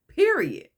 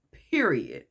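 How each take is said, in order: First: "Period" pitched high and louder, then falling; emphatic. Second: Said in the usual way. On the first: Retold or imitated. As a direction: punch out "Period" from high up, as a final word. Repeats the word with more force.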